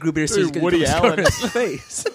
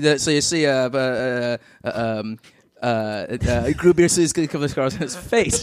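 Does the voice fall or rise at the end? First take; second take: fall; rise. First: The voice falls at the end. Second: The voice rises at the end.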